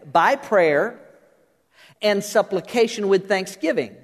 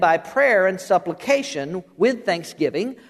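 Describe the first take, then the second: First: The phrase runs on with no pause before "with". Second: A pause separates "with thanksgiving" from what precedes. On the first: Prayer and supplication are offered with thanksgiving. "if perhaps we said it this way" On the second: Thanksgiving is a separate item in the list. "I have at times said it like this"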